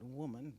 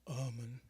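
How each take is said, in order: First: The word begins with a clear w sound. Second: The word begins with a guttural vowel sound. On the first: This is proper, educated speech. "Not woman" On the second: This is country folk speech. "the guttural start to ummin"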